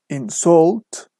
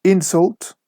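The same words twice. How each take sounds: First: InSULT, second syllable stretched and rising; verb stress. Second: INsult, high first syllable; noun stress. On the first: Teacher shows students the verb form, stress on SULT in "insult". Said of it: "the stress is on the second syllable". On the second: Teacher shows students the noun form, stress on IN in "Insult". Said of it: "the stress is on the first syllable". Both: Shown as a demonstration.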